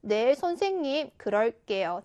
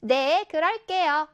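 First: Subdued polite answer, falling away at the end; humble acceptance. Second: Slow, confident answer drawn out clearly. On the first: Seulbi answering the homeroom teacher's advice, humble and accepting. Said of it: "이런 것이 어울리겠지요". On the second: Seulbi replying to the crossing guard's morning greeting, confident. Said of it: "자신감 넘치고 큰 목소리로". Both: Shown as a demonstration.

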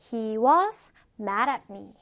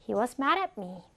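First: "He was" drawn out, then "mad at me"; careful, stretched teaching read of "He was mad at me"; slow model sentence. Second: Said in the usual way. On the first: Shown as a demonstration. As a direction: say "He was mad at me" slowly in two chunks. Teacher models sentence slowly first.

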